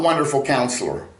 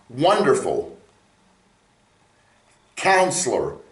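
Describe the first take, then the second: First: The two words run together without a pause. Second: There is a pause between the two words. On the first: It is one title where one word describes the other. The speaker calls it wrong. "He's not Wonderful Counselor" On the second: These are two separate titles. The speaker calls it right. "these are separate words"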